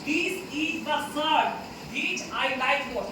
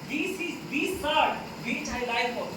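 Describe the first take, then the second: First: The word 'the' is said as short 'thuh'. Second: The word 'the' is said as long 'thee'. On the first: The speaker calls it wrong. "तो द गलत हो जाएगा" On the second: The speaker calls it right. "उस shirt पे हम जोर दे रहे हैं"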